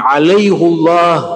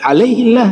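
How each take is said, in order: First: A u-vowel before a thick, heavy l-sound. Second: An i-vowel before a thin, light l-sound. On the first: The speaker calls it right. "dibaca tafkhim, tidak tar tarqiq, dibaca tebal, tidak tipis" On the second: The speaker calls it wrong. "jadi tarqiq, jadi tipis"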